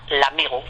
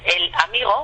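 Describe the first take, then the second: First: The article loses its vowel and joins the noun. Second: The article is a separate syllable with its vowel. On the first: The speaker calls it right. "desaparece la vocal E y llevamos la palabra toda junta" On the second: The speaker calls it wrong. "en vez de decir el amigo"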